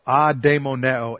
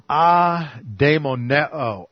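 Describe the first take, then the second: First: "Adaimoneo" run together at a steadier pace, ah-day-mo-neh-oh; Greek word said smoothly. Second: "adaimoneo" spelled out syllable by syllable, very slow, ah-day-mo-neh-oh; Greek word said slowly. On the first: Preacher repeating the Greek word smoothly. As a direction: say "Adaimoneo" as one flowing word. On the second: Preacher teaching the Greek word, very slow. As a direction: sound out "adaimoneo" piece by piece. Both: Shown as a demonstration. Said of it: "the Greek word".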